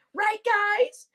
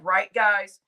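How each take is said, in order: First: Right, guys? asked high with a rising tune; rising question. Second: Said in the usual way. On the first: Shown as a demonstration. Streamer prompting chat again, high rising question. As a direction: lift guys up high like asking the crowd.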